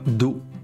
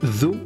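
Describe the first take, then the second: First: It begins with a plain d sound. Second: It begins with a voiced th sound. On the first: The speaker calls it wrong. "et non pas do" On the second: The speaker calls it right. "ذو et non pas do"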